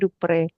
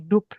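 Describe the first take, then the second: First: The final vowel is clearly pronounced. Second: The final vowel is silent. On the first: The name is written with an accent on the e. "itu ada aksen E ke sana itu bacanya Dupre" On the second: The name is written without an accent. "Kalau nggak ada dia jadi Dup gitu aja"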